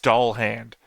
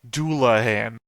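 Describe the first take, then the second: First: The name sounds like two words, doll hand. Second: The name sounds like doo-la-han, three syllables. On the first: This is how the other person says it. "What I hear you saying is doll hand" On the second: This is the speaker's own way of saying it. "I'm saying Doulahan"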